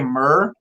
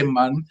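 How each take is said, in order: First: The word ends with a curled R sound. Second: The word ends with a plain N sound. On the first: It sounds like someone from Beijing. "somebody from Beijing would say" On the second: It sounds like someone from Taiwan. "Taiwan would just say"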